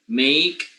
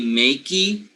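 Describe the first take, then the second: First: The word ends without any final vowel sound. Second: The word ends with an extra vowel sound. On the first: The speaker calls it right. "You don't pronounce the e" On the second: The speaker calls it wrong. "You don't say makey"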